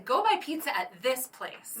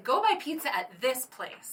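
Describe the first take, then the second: First: It sounds convincing and reassuring. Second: The same.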